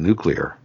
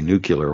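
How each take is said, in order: First: The word is said as noo-klee-er. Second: The word is said as nook-yuh-ler. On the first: This is the pronunciation used by scientists and experts. The speaker calls it right. "while everybody else is saying" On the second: This is the common everyday pronunciation, not used by specialists. The speaker calls it wrong. "it's just not going to work for you to say nuclear"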